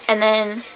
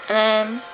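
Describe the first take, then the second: No difference in how they are said.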